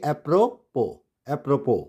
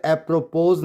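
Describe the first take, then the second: First: Apropos as ep-ro-PO; silent S. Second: Apropos as ep-ro-POZ; S sounded. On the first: Teacher gives the correct reading, silent S. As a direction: say apropos with no z, falling. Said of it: "apropos नहीं पढ़ेंगे". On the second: Teacher shows how not to read it, S sounded. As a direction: misread apropos with a z ending. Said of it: "नहीं पढ़ेंगे". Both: Shown as a demonstration.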